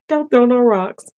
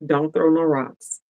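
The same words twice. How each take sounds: First: Higher and louder, laughing plea; teasing plea to viewers not to object; playful high call. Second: Said in the usual way. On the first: Real, not acted.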